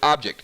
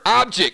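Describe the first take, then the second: First: The word is said in a standard accent. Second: The word is said in a Southern accent. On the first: "instead of object" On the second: "That's a southern way of saying it"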